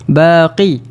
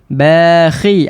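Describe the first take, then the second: First: The middle consonant is a deep back q. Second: The middle consonant is a throat kh sound. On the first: The speaker calls it wrong. "Kalau terlebih pula, ... Huruf qaf" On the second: The speaker calls it right. "kita nak perhatikan huruf kha ni"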